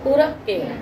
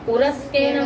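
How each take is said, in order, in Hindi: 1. k जैसी ध्वनि आगे वाले k को दोगुना कर देती है। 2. k से पहले s जैसी ध्वनि आती है। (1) "उसे मतलब डबल जैसा उच्चारण करेंगे" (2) "विसर्जनी को सकार कर दिया"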